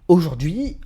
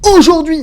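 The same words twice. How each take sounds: First: The word is said plainly, without marked emphasis. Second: The word is said with strong, marked emphasis. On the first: The speaker calls it right. "tu donnes de l'intonation à la fin de ta phrase" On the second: The speaker calls it wrong. "Ne donne pas de l'intonation au début de ta phrase"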